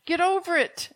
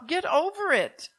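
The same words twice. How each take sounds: First: Blunt, firm dismissal; harsh. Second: Slower, deliberate, stressing over; harsh. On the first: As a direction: tell them bluntly to get over it. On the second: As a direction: drag it out firmly, leaning on over. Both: Real, not acted. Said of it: "I know I sound harsh".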